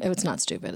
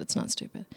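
First: Said in the usual way. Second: Whispered, under the breath; muttered correction; hushed self-correction. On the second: Real, not acted. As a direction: quietly take it back.

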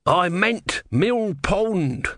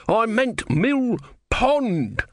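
First: High, very drawn-out protest; wailed correction. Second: Very high, stretched-out wail; desperate wailed correction. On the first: Tortoise god corrects himself at sea, high slow wail. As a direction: call out the correction, stretching each word. God's promise has gone wrong. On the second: Tortoise god insists at sea, higher desperate drawn-out wail. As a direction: repeat it higher still, pausing before the last word. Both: Acted.

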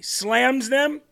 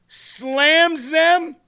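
First: Disbelieving, rising "Slams them?"; incredulous question. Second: Much higher, louder "Slams them?"; outraged disbelief. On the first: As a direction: ask it in mild disbelief. Mocking media headline, first take. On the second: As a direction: throw it back in scornful outrage. Repeats headline, escalating. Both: Real, not acted.

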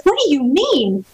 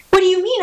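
First: Slow, hurt question, a mild retelling of the anger; stunned disbelief. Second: Higher, pleading repeat that rises at the end; upset repeat. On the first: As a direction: let the shock slow the words down. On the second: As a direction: push the question up in protest. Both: Retold or imitated. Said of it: "I was so angry, and I was so shocked".

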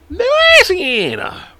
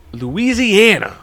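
First: LOUISIANA in an extremely high, long wail; silly falsetto announcement. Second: LOUISIANA drawn out in a raised pitch; hammed-up announcement. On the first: Pretend. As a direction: squeal "Louisiana" far higher and very drawn out. Repeats the state in sillier voice. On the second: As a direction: stretch out "Louisiana" high and slow. Announcing the state, first take.

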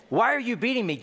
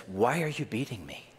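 First: Donkey's plea. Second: Said in the usual way. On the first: Shown as a demonstration. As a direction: cry it out like the wronged donkey.

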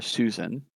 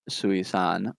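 First: "Susan" as the everyday name, SOO-zən; pronounced as Susan. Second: "Sui-san" in three syllables, soo-ee-SAHN; pronounced as spelled. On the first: Host offers the co-host's alternative reading, pronounced as Susan. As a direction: say "Susan" in two syllables with a weak last vowel. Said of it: "pronounce that as Susan". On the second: Host reads out the alien name, pronounced as spelled. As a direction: slowly sound out "Sui-san" with an open final AHN. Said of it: "it's spelled S U I hyphen S A N". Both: Shown as a demonstration.

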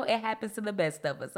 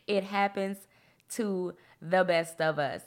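First: Said in the usual way. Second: Deliberate, spaced-out reassurance. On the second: Real, not acted. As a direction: break after "happens", then stretch out "to the best of us". Repeats line slowly for emphasis.

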